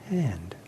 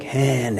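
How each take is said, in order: First: The word is said quietly, with little effort. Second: The word is said forcefully, with effort.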